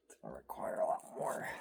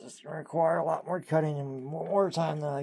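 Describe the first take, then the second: First: ASMR whisper. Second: Louder, higher normal talk; full voice. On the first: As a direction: whisper it close to the mic. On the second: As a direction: drop the whisper and speak out. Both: Real, not acted. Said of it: "Not doing good in the A S M R voice".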